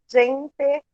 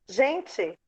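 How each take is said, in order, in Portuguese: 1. A vogal final soa como um E claro. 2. A vogal final soa como um I. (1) "eles têm a mania de falar corretamente a palavra" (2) "a gente troca o E pelo I"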